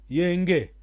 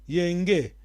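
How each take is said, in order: The two takes are said the same way.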